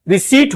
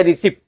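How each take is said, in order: First: रिसीट with a long ee and no P; रिसीट, falling, P left silent. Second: रिसिप्ट with a short i and sounded P; रिसिप्ट, short second vowel closing on P; mistaken pronunciation. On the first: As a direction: say रिसीट as "ri-seet". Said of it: "इसे रिसीट पढ़ा जाता है". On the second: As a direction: say रिसिप्ट as "ri-sipt", the spelling way. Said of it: "रिसिप्ट नहीं पढ़ा जाता है". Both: Shown as a demonstration.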